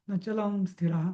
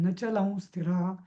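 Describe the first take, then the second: No difference in how they are said.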